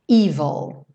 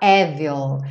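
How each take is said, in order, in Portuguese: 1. A primeira vogal é um som 'ee' longo. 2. A primeira vogal é um som 'eh' aberto.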